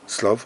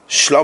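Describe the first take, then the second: First: The word begins with a plain s sound. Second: The word begins with an sh sound. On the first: "Slav is with a dot on the sin on the left hand thing of the shin" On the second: "The first one is Shlav. With it on the right hand side"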